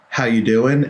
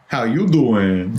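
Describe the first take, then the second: First: It is said in a plain, neutral voice. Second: It is said in a flirty Joey Tribbiani voice.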